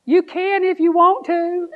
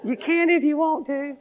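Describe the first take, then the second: First: Put-on high, slow little-girl voice; teasing high child voice. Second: Tiny teasing voice; little voice. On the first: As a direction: squeak it like a shy granddaughter. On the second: Retold or imitated. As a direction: repeat it in a small coaxing voice. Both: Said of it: "I heard this little voice".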